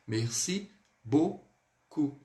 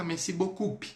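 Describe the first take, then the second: First: "Merci beaucoup" very slowly, ending bo-ku with a silent p; correct slow demo. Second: "merci beaucoup" with the final p wrongly voiced, bo-kup; wrong pronunciation. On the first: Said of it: "Nunca vamos falar dessa forma". ("Merci beaucoup" certo, bem devagar, sem o p) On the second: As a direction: show the mistake, sounding the p in "beaucoup". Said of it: "Jamais. Nunca vamos falar dessa forma". ("merci beaucoup" errado, pronunciando o p no final) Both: Shown as a demonstration.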